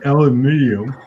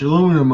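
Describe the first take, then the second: First: The word is said with five syllables. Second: The word is said with four syllables.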